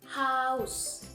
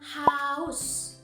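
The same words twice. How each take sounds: Both takes have the same delivery.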